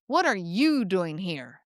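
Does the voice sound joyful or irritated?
irritated. It sounds irritated and judgmental. The speaker thinks the listener is in the wrong place. "it's dripping with irritation and judgment"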